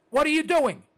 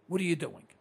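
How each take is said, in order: First: Louder, higher holler at the listeners. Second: Said in the usual way. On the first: Real, not acted. Host hollering at his radio listeners. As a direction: yell it at them to wake them up. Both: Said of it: "I'm hollering at you".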